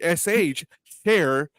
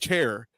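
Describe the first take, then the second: First: The word begins with a soft 'sh' sound. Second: The word begins with a sharp 'ch' sound. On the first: "you start saying sh chair" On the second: "rather than chair"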